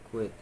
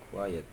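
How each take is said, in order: First: "quit" as one clipped syllable, no second vowel; imitating quiet said as "quit"; mispronounced quiet. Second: Said in the usual way. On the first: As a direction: say "quit" short, dropping the "-et". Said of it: "It's more like". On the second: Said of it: "The correct word is".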